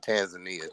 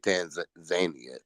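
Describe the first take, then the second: First: It is pronounced in a typical American way. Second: It is pronounced the way East Africans say it. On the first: This is how the speaker normally says it. "I say Tanzania too" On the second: This is how people from the region say it. "but they say Tanzania"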